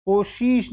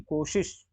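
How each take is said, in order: First: कोशिश as "kosheesh", held vowel; wrong long ee. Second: कोशिश as "koshish", soft and quick; short i. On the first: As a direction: stretch शि in कोशिश. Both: Shown as a demonstration. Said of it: "कोशिश नहीं".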